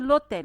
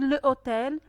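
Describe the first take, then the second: First: The article's vowel is dropped and linked on. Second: The article's vowel is kept before the noun. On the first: The speaker calls it right. "on a dit l'hôtel, on a mis la liaison" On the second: The speaker calls it wrong. "On n'a pas dit le hôtel"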